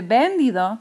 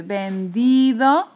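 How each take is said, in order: First: "vendido" wrongly stressed on the first syllable, VEN-dido; acento equivocado en VEN. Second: "vendido" slowly, with a long stressed DI; acento en DI. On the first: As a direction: punch VEN in "vendido", rest unstressed. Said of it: "No se dice vendido". ("vendido" como esdrújula, VÉN-dido) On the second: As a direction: stretch the middle syllable, ven-DIII-do. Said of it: "se dice vendido". ("vendido" lento, con la DI fuerte y alargada) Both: Shown as a demonstration.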